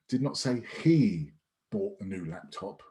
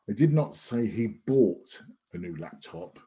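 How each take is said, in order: First: The word "he" carries the main stress. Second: The word "bought" carries the main stress. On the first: Someone else bought the laptop. "so it could have been someone else, anyone else, but it wasn't him" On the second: The laptop was obtained some other way than buying. "Could have leased it, rented it, whatever it might be"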